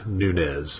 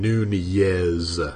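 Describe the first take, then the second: First: The name is said with English sounds. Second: The name is said with Spanish sounds. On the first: The speaker calls it wrong. "not Nunez, as they were pronouncing it on the game" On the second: The speaker calls it right. "it's the Spanish pronunciation"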